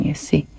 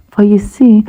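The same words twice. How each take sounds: First: "you see" dropped to a soft whisper. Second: "see" lifted higher and louder; emphatic. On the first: Elephant telling the croc about Herbert, whispered. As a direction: breathe "see" away quietly. Elephant ending plea softly. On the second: Croc to the elephant, emphatic lift on "see". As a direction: lean up onto "see". Croc explaining his upset stomach. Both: Acted.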